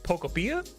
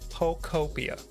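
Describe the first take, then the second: First: It is said with a European-style intonation. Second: The start sounds like the start of Pokemon. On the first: "That's the European" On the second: "Like po Pokemon"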